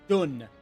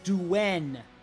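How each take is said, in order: First: The syllable is a plain 'dun' without glide. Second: The syllable has a 'dw' glide before the vowel. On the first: The speaker calls it wrong. "not Dun" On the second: The speaker calls it right. "Xiahou Duen"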